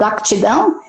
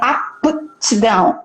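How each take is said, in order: First: The word is said quickly, syllables running together. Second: The word is said slowly, syllable by syllable. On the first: "se eu falar rápido" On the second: "eu até tento silabar, pronunciar de forma bem específica"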